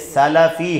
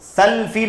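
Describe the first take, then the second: First: A vowel separates the s-l and l-f sounds. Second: No vowel comes after the l sound. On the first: The speaker calls it right. "लाम पर ज़बर है" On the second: The speaker calls it wrong. "सल्फ़ी नहीं है"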